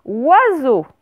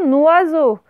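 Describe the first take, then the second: First: "oiseau" alone, starting on a wa sound; without liaison. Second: "noiseau" starting with an n sound; liaison n attached. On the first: Teacher shows the separate word, isolated "oiseau". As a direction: detach "oiseau" after a pause, no n. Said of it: "Vous allez écrire un". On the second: Teacher shows what not to write, n-initial "noiseau". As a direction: put the n on the front, "noiseau". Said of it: "vous n'allez pas écrire". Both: Shown as a demonstration.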